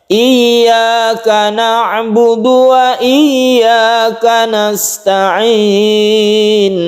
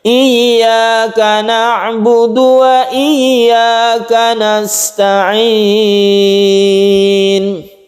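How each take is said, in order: No difference in how they are said.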